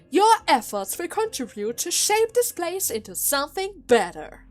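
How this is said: The line is read in a mock-dignified, sarcastic tone.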